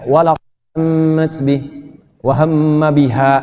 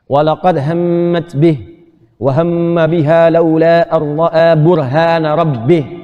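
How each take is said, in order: First: It comes to a stop right after biha. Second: It runs on without a stop after biha. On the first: The speaker calls it wrong. "jangan begini ... agak kurang tepat tuh" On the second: The speaker calls it right. "Makanya wakafnya di akhir"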